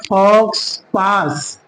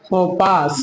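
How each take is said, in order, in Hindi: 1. x का उच्चारण ks ध्वनि की तरह होता है। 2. x साइलेंट है, इसमें ks ध्वनि नहीं है। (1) "लिखा गया है फॉक्स पास" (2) "लेकिन इसको हम पढ़ेंगे क्या?"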